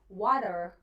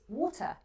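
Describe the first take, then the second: First: A relaxed American accent with the T almost gone. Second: A strong British accent with a clear, hard T. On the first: "if you have an American relaxed accent ... the T is just almost invisible" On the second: "If you have a strong British correct accent"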